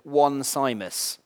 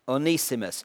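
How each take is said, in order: First: The name begins with the word 'one'. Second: The name does not begin with 'one'. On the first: The speaker calls it wrong. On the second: The speaker calls it right. "it's Onesimus"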